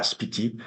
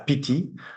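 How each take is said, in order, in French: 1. Le nom commence par un s avant le p. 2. Le nom commence directement par un son p. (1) "puisqu'il va euh, prononcer euh, la, la lettre suscrite ça" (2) "pour un habitant euh, de cette vallée est la Piti"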